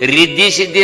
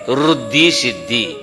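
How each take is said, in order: First: The first word begins with the sound 'ri'. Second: The first word begins with the sound 'ru'. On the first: The speaker calls it wrong. "रिद्धी Siddhi नाही" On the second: The speaker calls it right. "ते ऋषीचा रू आहे"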